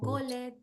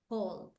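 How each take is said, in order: First: The ending is an extra syllable after call. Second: The ending is a plain D sound after call. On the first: The speaker calls it wrong. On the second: The speaker calls it right. "called with the D sound"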